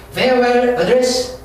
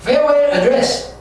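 First: "Farewell address" drawn out very slowly, rising end; slow teacher reading; slow drill. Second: "Farewell address" drawn out very slowly; slow teacher reading; slow drill. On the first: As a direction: stretch it again with a lift at the end. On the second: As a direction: stretch it out for students. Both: Shown as a demonstration. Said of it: "slow vocabulary drill".

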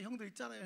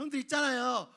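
First: Much softer, secretive call; hushed brother. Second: High, louder chirpy call to the brothers; eager little brother. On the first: Joseph leaning in to tell the brothers a secret, hushed. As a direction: drop to a near hush. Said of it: "막 하는 말이". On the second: Joseph eagerly calling his brothers, high and bright. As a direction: bounce it up like a clueless kid. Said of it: "이러는 거예요". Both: Acted.

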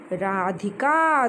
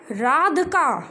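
First: राधिका slowly, short i after dh, ra-dhi-ka; correct pronunciation. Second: राधिका said as radka, dropping the i; wrong reading. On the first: Teacher correcting a pupil, slow careful राधिका. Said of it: "तो ध को हम छोटी ई की मात्रा लगाएंगे". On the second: Teacher quoting a child's slip, राधिका as radka. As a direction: misread राधिका without the short i. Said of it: "क्या राधिका नाम होता है?". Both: Shown as a demonstration.

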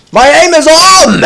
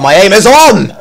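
First: Much higher, stretched-out boast; elated yell. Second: Excited boast. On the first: Gamer thrilled with his own aim, elated yell. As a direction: draw it out in a high, thrilled yell. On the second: First excited boast about aim. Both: Real, not acted.

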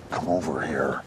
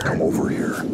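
First: Coaxing. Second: Whispered summons; coaxing whisper. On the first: Coaxing the fish closer. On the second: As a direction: whisper it to lure something closer. Coaxing the fish closer, whispered. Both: Real, not acted.

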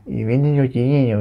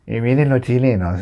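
First: "chilenos" mushed into mocking baby-like gibberish; burla balbuceada. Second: Said in the usual way. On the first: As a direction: garble "vienen los chilenos" mockingly. Mangled mocking repeat of same words. ("chilenos" deformado en balbuceo burlón)

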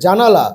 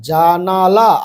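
First: জানালা run together as one word; quick pronunciation. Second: জানালা drawn out syllable by syllable; slow pronunciation. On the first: Teacher showing pupils the next step, said quickly. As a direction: say জানালা quickly, syllables joined. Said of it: "একটু তাড়াতাড়ি উচ্চারণ করবে". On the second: Teacher showing pupils how to read a long word, slowly. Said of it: "আস্তে আস্তে আগে উচ্চারণ করবে". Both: Shown as a demonstration.

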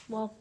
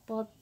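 The two takes are said the same way.

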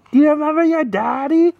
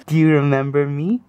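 First: Sing-song parent voice, pitched up. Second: Said in the usual way. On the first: Real, not acted. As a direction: coo it up high to an infant. Cooing to baby, higher take.

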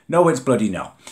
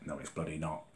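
First: Indignant exclamation; loud indignant denial. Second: Muttered under the breath, much softer; low bitter mutter; quiet muttered denial. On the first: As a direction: pitch up and louder, emphatic. Repeats denial, then loud. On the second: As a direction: drop the voice to a grumble. Repeats denial, first muttered. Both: Real, not acted.

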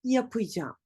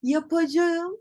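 First: Yapacağım as ya-pı-ja(m), falling; spoken contraction. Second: Yapacağım in full, ya-pa-ja-ım, higher; written form. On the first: Teacher corrects, yapacağım as yapıcam. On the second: Teacher shows what to avoid, full yapacağım. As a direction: pitch up, sound out yapacağım. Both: Shown as a demonstration. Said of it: "değil".

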